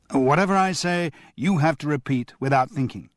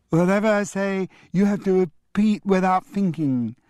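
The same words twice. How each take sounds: First: Said in the usual way. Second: Put-on high parroting little boy; childish echo. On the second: A twin parroting grandfather's rule, high and squeaky. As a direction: copy grandad in a squeaky kid voice.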